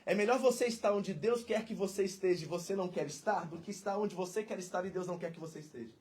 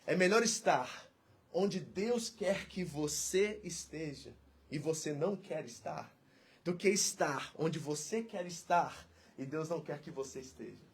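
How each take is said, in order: First: It is said fast. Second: It is said slowly.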